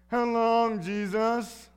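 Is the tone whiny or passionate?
whiny. It is said in a whiny, complaining tone.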